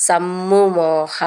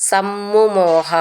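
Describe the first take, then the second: Both takes have the same delivery.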